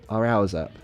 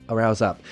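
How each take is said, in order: First: The word 'is' is contracted onto 'hour'. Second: The word 'is' is contracted onto 'hour'.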